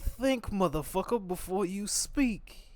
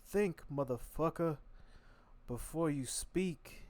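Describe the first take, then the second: First: Much higher and louder, slow furious warning; dad yelling. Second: Slow, drawn-out higher warning from dad; dad scolding. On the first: Imitating his dad shouting at him to think, much louder. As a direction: belt it out like a riled-up father. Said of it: "He'd be like". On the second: Imitating his dad telling him to think first, slow and higher. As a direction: stretch each word like a stern father lecturing. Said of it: "My dad used to always be like". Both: Retold or imitated.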